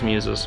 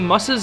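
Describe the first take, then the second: First: The first vowel is long, as in 'fuse'. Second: The first vowel is short, as in 'fuss'. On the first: The speaker calls it right. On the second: The speaker calls it wrong.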